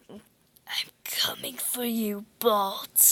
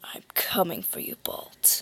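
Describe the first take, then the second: First: It is said in a plain, normal voice. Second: It is said in a put-on scary voice.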